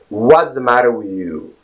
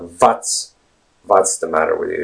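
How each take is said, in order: First: The opening W is said with rounded lips. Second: The opening W is said without rounded lips. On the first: The speaker calls it right. "It's ooh, what's" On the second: The speaker calls it wrong. "it's not"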